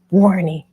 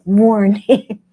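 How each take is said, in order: First: "Warning" drawn out with a falling end; playful spooky repeat of the warning; mock ominous. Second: Louder, hammed-up "Warning."; a teasing replay of her own ominous warning; mock ominous warning. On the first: Shown as a demonstration. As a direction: ham up the doom, then let it drop. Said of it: "'Warning.'". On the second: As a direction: echo the warning as a dramatic alarm. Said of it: "Jamie was like".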